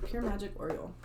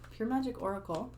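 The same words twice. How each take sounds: First: "Oriole" said as or-ee-ul like the bird; stumble, reading "Oriole" as the bird name; misreading. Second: "Oracle" said clearly as or-uh-kul; corrected reading. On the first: Reading the deck title wrong, "Oriole" like the bird. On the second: Correcting the deck title for viewers, "Oracle" said right. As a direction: fix it to "Oracle" with a rising check. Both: Real, not acted.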